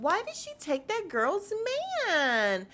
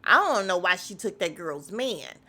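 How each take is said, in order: First: High, lilting, played-down question; mock innocent retelling. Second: Blunt original version. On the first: [name] retelling her remark to Portia, mock innocent. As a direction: imitate her softened version, pitched well up. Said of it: "that's how she said it". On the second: Retold or imitated. Host correcting [name]'s retelling, blunt and loud. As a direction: imitate how it was really said, no sweetening. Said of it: "that is not how you said it. You said".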